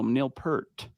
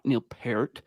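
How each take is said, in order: First: Peart does not sound like pear plus T. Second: Peart sounds like pear with a T added. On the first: This is the form the speaker's brain expects. The speaker calls it right. "my brain goes, no" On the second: This is how the other person's name is said. The speaker calls it wrong.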